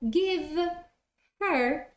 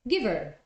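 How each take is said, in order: First: The h in her is pronounced. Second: The h is dropped and words link.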